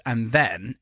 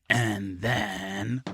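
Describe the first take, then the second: First: Said in the usual way. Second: "and then" stretched long and lower; lingering, lowered "and then" left hanging; drawn-out suspense. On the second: Real, not acted. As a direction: draw out "and then" in a low, teasing tone.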